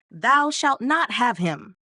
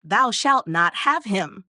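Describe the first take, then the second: First: The gruff warning once more, drawn out; gruff cry. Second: Slow, loud gruff call from behind the altar; a clerk's slow, gruff warning; gruff cry. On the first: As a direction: call it again slowly, gruff and stern. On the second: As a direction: boom it out slowly, gruff and stern. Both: Acted. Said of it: "cried out in a very gruff voice".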